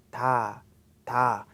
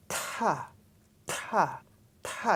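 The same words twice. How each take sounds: First: "ta" soft, with no puff; soft plain ta. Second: "ta" delayed, with a strong puff of air; hold, then burst "ta"; aspirated ta. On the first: Teacher contrasts the soft plain "ta" for students. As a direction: tap "ta" gently. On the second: Teacher contrasts the aspirated "ta" for students. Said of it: "take a little time before actually you pronounce". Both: Shown as a demonstration.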